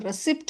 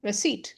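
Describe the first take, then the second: First: A 'p' sound is heard before the final 't'. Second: No 'p' sound is heard before the final 't'. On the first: The speaker calls it wrong. "எப்பவுமே இத நம்ம ரெசிப்ட் அப்படின்னு படிப்போம்" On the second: The speaker calls it right. "இந்த பி வந்து silent"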